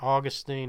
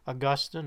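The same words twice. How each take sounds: First: The name is said in an American pronunciation. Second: The name is said in a non-American pronunciation.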